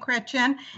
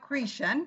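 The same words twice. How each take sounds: First: The name is pronounced the French way. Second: The name is pronounced the English way.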